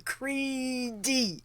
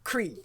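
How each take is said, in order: First: The name is said with two syllables. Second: The name is said with one syllable. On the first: The speaker calls it wrong. "I always want to go Creedy" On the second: The speaker calls it right. "no, Cree"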